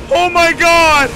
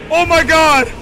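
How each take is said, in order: Both takes have the same delivery.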